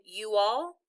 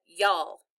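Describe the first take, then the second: First: Said in the usual way. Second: "y'all" as one Southern syllable; Southern pronunciation. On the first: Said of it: "instead of saying". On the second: Shown as a demonstration. Child showing mother's worried talk, Southern "y'all". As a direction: run it together as Southern "y'all". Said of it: "she said".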